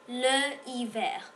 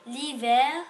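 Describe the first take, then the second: First: The article is a separate syllable before the noun. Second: The article's vowel drops and merges into the noun. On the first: The speaker calls it wrong. "on ne peut pas dire le hiver" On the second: The speaker calls it right. "On doit dire l'hiver"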